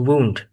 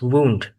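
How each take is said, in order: First: It is the pronunciation used for an injury. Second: The same.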